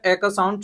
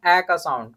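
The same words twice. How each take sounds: First: ए said as a closed "ay", as in ate; short A sound. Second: ए said as an open "ae", as in apple; open A sound. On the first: Teacher showing pupils one more sound of A, ए as closed "ay". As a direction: demonstrate ए as the vowel of "ace". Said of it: "छोटा जो होता है". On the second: Teacher showing pupils another sound of A, ए as open "ae". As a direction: demonstrate ए as the wide vowel of "cat". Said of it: "इसका एक और sound निकलता है". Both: Shown as a demonstration.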